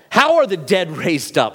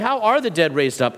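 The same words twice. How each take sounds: First: The question sounds scornful and challenging. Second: The question sounds earnest and genuinely curious. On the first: The asker wants to show the doctrine makes no sense. "I'm going to ask the stupid question" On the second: The asker truly wants an explanation. "I'd really like to know"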